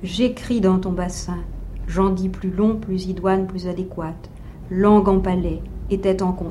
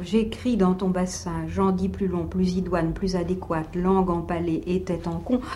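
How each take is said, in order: First: The line falls drop by drop with pauses between phrases. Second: The line flows on without pauses between phrases. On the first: "une sorte de chute assez goutte à goutte" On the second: "vous le lisez en continuité"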